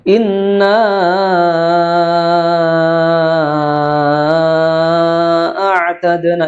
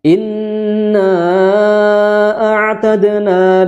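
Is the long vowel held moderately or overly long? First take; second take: overly long; moderately. First: The long vowel is stretched far too long. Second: The long vowel is held a moderate length. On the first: The speaker calls it wrong. "itu kepanjangan" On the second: The speaker calls it right. "dibacanya cukup empat atau lima harokat"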